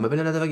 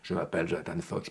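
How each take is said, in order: First: It is said in a casual, offhand tone. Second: It is said in a solemn, dignified tone.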